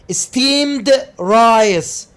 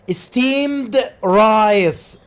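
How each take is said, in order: Both takes have the same delivery.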